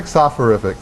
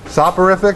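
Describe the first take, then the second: First: "soporific" with an F sound for the P; "soporific" as soph-uh-RIF-ic; PH pronunciation. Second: "Soporific" with a P sound, pitched higher; "Soporific" as sop-uh-RIF-ic, higher; P pronunciation. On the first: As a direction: try out "soporific" as if spelt with PH. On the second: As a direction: try out "Soporific" with a hard P. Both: Shown as a demonstration. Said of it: "Is it a P or P H".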